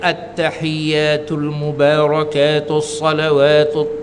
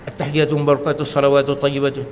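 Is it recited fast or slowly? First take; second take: slowly; fast. First: It is recited slowly and calmly. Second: It is recited quickly.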